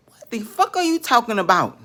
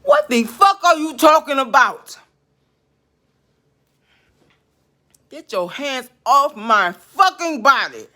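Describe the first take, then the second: First: Angry demand. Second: High, loud real yell, then slow and hard; furious shout. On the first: Ranting at spirit, louder. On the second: Yelling at the spirit to get its hands off, furious. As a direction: scream it at the spirit. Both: Real, not acted.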